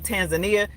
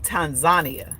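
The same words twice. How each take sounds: First: It is said the speaker's usual English way. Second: It is said the way Kiswahili speakers say it. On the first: The speaker calls it wrong. "I say Tanzania" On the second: The speaker calls it right. "If you speak Kiswahili, they say Tanzania"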